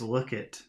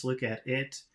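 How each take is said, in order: First: "Look it" with "at" swallowed; casual contraction. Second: Said in the usual way. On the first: Shown as a demonstration. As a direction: say "Look it" as two run-on words. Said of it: "all they say is". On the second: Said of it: "maybe that means".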